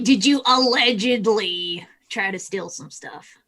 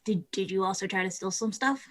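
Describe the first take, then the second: First: "allegedly" drawn out slowly and pointedly; stress on allegedly. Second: Softly ask, stumbling on the first word; soft, tentative question with a rise at the end; quiet probing question. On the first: Player rephrases after stranger's legal dodge, stressing "allegedly" slowly. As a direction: lean hard on "allegedly", stretching it out. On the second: Player asks stranger about stealing, quiet and probing. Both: Acted.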